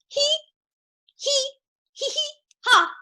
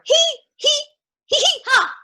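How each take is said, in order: First: The laugh is said softly. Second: The laugh is said loudly.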